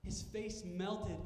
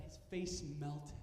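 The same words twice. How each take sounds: First: Much slower. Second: Slowed down. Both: Shown as a demonstration.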